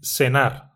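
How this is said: The first sound is like English s. "They say cenar. They use S sound instead of C sound"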